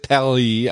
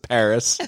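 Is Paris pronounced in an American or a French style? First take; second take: French; American. First: It is pronounced in a French style. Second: It is pronounced in an American style. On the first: "I don't pronounce it Pally" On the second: "I pronounce it Paris, because I'm a goddamn American"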